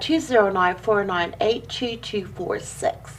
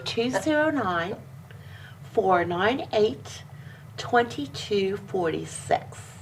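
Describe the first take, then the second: First: The number is said at normal speed. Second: The number is said slowly.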